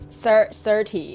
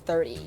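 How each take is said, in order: First: The first sound is an s sound. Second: The first sound is a th sound. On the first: "pronounce th with like more of an s sound" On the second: "instead of thirty"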